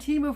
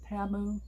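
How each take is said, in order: First: The first syllable sounds like 'tee'. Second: The first syllable sounds like 'tah'. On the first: This is the habitual way the speaker has said it. The speaker calls it wrong. "We've done Timu for so long" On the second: This is how the company says it. The speaker calls it right. "apparently they pronounce it Tamu"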